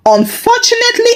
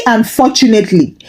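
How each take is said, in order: First: First unfortunately pitched high and fast; emphatic. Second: Said in the usual way. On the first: A narrator's reading. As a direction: lift the word Unfortunately up high, quickly. Repeated word, first take marked.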